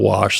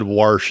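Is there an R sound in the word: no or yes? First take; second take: no; yes. First: The word is said without an R sound. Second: The word is said with an R sound. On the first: This is the usual way to say it. The speaker calls it right. "instead of wash" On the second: This is how the teacher said it. The speaker calls it wrong. "she also said wash"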